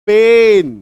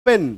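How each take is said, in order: First: पेन said loud with a stretched e; emphatic pen. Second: Said in the usual way. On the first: Shown as a demonstration. Teacher contrasting single and double vowel in पेन. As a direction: draw out पेन strongly. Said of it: "उच्चारण में difference". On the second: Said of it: "एकार की मात्रा".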